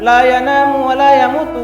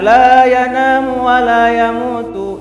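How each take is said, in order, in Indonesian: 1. Vokal 'la' dipotong pendek. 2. Vokal 'la' dibaca panjang. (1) "kalau tidak kita panjangkan" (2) "la yana itu kan panjangkan"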